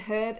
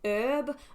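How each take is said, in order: First: The initial H is clearly sounded. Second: The initial H is silent. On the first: This is how it is said in the UK. "here the H in herb is pronounced" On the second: This is how it is said in many other countries. "in lots of other countries it's pronounced herb"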